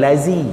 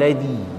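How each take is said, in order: First: The middle consonant is a buzzing 'z' sound. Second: The middle consonant is a soft 'dh' sound. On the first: The speaker calls it wrong. "bukan lazi tu zai" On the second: The speaker calls it right. "hujung lidah"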